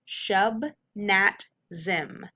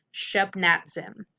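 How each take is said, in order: First: Shub, nat, zim as separate beats; syllable by syllable. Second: Shub, nat, zim run together; blended whole word. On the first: Teacher sounding out the word for students, syllable by syllable. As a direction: give SHUB, NAT and ZIM each its own beat with gaps. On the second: Teacher reading the whole word to students, blended. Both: Shown as a demonstration. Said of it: "Whole word".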